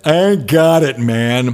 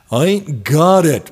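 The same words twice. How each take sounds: First: Hammed-up New York accent, pitched up at the start. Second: A hint of a New York accent; lightly put-on New York accent. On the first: DJ mocks his own accent playing broke guitarist, exaggerated New York accent. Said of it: "do a real New York accent". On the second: Guitarist tells manager he has no cash, light New York accent. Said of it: "giving him a New York accent".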